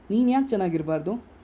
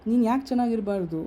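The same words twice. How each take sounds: First: ಯಾಕೆ stressed, question rising at the end. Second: ನೀನು punched higher, falling at the end; stress on ನೀನು. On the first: Speaker challenging the audience, stressing ಯಾಕೆ with a rising question. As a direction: lean on ಯಾಕೆ and lift the end as a real question. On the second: Speaker pointing at each listener, stressing ನೀನು with a falling end. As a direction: hit ನೀನು hard, then let the question fall. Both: Shown as a demonstration.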